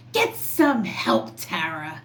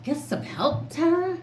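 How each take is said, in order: First: Mock scream. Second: Mocking repeat. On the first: Vlogger quoting a commenter's taunt, mock yell. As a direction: throw the commenter's jab back at her, hammed up. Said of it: "and then somebody screams". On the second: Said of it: "Second off".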